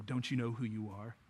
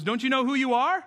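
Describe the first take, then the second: First: Low, very soft, insinuating tempter; the enemy. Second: Raised, challenging mentor's question; Rafiki. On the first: Enemy getting on the believer's level, quiet accusing voice. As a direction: drop low and hushed, needling the listener. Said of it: "The enemy would love to get on your level and go". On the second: Rafiki challenging Simba after hitting him, lightly voiced mentor. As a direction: lift pitch high into an insistent question. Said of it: "Rafiki hits him over the head with the staff and goes". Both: Retold or imitated.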